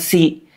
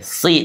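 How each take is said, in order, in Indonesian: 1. Bunyi s itu tipis. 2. Bunyi s itu tebal.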